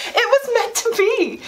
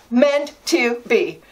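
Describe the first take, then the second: First: Higher, thrilled declaration. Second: Slow, savoring echo. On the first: Telling viewers, thrilled and pitched higher. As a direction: announce it like fate itself. Exulting over the bargain. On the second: Repeating it slowly to herself, savoring. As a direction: linger over every word. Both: Real, not acted.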